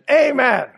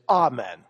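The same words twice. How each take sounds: First: The word is said with an American pronunciation. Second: The word is said with a British pronunciation. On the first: "the American pronunciation is amen" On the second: "the British pronunciation is amen"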